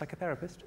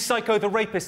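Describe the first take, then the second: First: It is said smoothly as one single word. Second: It is split into three separate words. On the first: It names a therapist who treats the mind. The speaker calls it right. "I think you'll find it's pronounced psychotherapist" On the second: The speaker calls it wrong.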